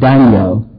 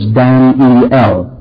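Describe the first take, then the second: First: The name is said with two syllables. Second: The name is said with three syllables. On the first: This is the English form of the name. "The English word at least two" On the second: This is the Hebrew form of the name. "the Hebrew word Daniel has three syllables"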